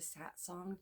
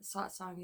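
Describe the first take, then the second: First: The A vowels do not sound like 'Oz'. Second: The A vowels sound like the vowel in 'Oz'. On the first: It is easier for listeners to understand. "I changed it to satsang to try to, I don't know, make it more understandable" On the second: It is how the speaker's guides say it. "satsang is natural. The A's sound like Oz"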